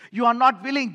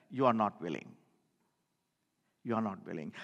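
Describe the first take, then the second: First: Louder, pressing on not; emphatic rebuke. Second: Much lower and softer, sinking away; sorrowful murmur. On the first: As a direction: drive the words home to the listeners. Preacher confronts the unwilling. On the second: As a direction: let it fall into grief. Preacher laments unwilling listeners. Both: Real, not acted.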